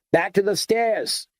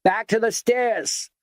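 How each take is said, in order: First: Raised urgent call, falling at the end; bellowed. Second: Much higher, slower bellowing command; bellowed. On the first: Garnish orders the group back to the stairs, bellowing. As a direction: order everyone back with a high shout. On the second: Garnish repeats the order to the stairs, drawn-out bellow. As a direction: drag out the order so the whole lobby hears. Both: A narrator's reading. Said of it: "bellowed Kenneth Garnish".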